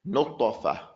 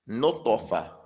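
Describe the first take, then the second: The two takes are said the same way.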